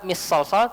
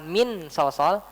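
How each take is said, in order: First: The n sound merges into the following s. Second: The n sound is pronounced fully and clearly. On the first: "Nggak kita baca dengan idgham juga" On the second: "Kita nggak baca dengan jelas, bukan"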